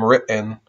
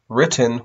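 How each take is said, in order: First: The T in the middle is a throat catch. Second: The T in the middle is clearly pronounced.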